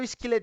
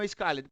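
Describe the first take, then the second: First: The vowel is a short i sound. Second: The vowel is a long eye sound. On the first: The speaker calls it right. "eu falo skilled" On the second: The speaker calls it wrong. "e não skilled"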